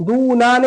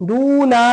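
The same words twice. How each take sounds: No difference in how they are said.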